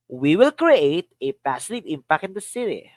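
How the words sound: The word "create" carries the main stress. "Another. Create"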